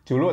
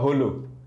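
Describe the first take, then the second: First: The word begins with a J sound. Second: The word begins with an H sound.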